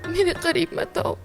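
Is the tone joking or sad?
sad. It is said in a sad, sorrowful tone.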